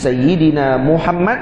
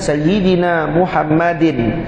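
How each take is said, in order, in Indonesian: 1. Nama itu diakhiri konsonan akhir tanpa tambahan. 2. Nama itu diakhiri bunyi -in yang ditambahkan. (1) "Jadi Sayyidina Muhammad" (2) "Kalau dibaca Sayyidina Muhammadin, ... dia akan jadi maksur"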